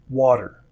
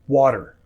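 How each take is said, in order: First: The middle T sounds like a soft D. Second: The same.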